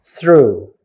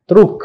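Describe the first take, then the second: First: "through" with th, r, long oo; th-r-oo, silent g and h in "through"; correct "through". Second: "truk" with hard t and final k; short, loud "truk", ending on a k; mispronouncing "through". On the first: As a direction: open "through", no k at the end. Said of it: "but it should be". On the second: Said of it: "Some people, if you take it for granted, you may pronounce". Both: Shown as a demonstration.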